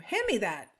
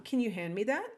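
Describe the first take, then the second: First: Firm, adamant command with a falling end. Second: Rising question tune on THAT; questioning request. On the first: Teacher demonstrating an adamant order to a kitchen helper, adamant. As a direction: say it as an insistent order. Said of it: "saying it really adamantly". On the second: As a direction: ask it as a polite question, "that" lifting at the end. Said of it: "Like as a question". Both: Shown as a demonstration.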